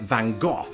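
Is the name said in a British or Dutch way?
British. It is said with a British pronunciation.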